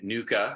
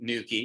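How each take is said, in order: First: The word ends in an 'ah' sound. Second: The word ends in an 'ee' sound. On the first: The speaker calls it wrong. "I'm no longer calling it nuka" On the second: The speaker calls it right. "that's the way you're supposed to really pronounce it"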